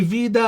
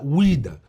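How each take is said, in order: First: The word begins with a V sound. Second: The word begins with a W sound. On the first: This is the Western form of the name. The speaker calls it wrong. "مسمى غربي" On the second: This is the Eastern form of the name. The speaker calls it right. "النطق الشرقي الأصح"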